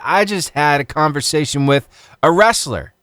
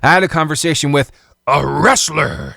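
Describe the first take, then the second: First: It is said in his normal voice. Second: It is said in a put-on dramatic voice.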